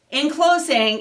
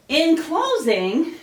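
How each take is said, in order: First: Said in the usual way. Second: Breathless, slow rising phrase; winded after the chants; out of breath. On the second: Real, not acted. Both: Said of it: "whew, I'm out of breath".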